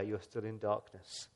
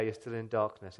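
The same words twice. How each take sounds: First: Softer and slow on "you're still in darkness"; quiet. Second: Said in the usual way. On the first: Real, not acted. Preacher to congregation, softly and slowly. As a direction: let "darkness" sink low and slow. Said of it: "If the light of the world is not there". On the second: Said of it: "If Jesus isn't there".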